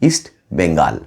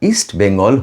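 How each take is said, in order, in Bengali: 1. শেষ অক্ষরে লম্বা, খোলা 'aa' স্বর। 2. শেষ অক্ষরে ছোট 'o'-এর মতো স্বর। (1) "ইস্ট বেঙ্গল হয়ে যায় ইস্ট বেঙ্গাল" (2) "নাম ঠিকমতো উচ্চারণ করতে পারেন না"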